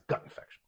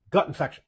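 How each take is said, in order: First: Breathy whisper on "gut infection"; whispered repeat. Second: Said in the usual way. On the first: Shown as a demonstration. Host hammering home the diagnosis, whispered. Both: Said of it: "until you prove otherwise".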